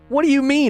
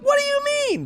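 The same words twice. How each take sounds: First: It is said in a normal, gravelly voice. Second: It is said in a raised, high voice.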